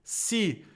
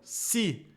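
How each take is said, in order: The two takes are said the same way.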